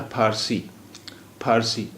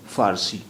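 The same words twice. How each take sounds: First: फ़ारसी said with an aspirated ph; teacher shows the wrong फ़ारसी with ph. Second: फ़ारसी with a clear f; teacher models the correct फ़ारसी with f. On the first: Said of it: "और फ़ारसी भी ये गलत होता". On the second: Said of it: "सही लफ्ज़ है फ़ारसी". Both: Shown as a demonstration.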